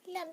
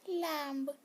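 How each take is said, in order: First: The final b sound is left silent. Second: The final b sound is pronounced. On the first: The speaker calls it right. "बी silent होता है ना, तो उसको लैम्प बोलते हैं" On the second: The speaker calls it wrong. "तो बिल्कुल ही wrong होता है"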